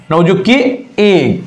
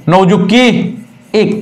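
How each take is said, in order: Both takes have the same delivery.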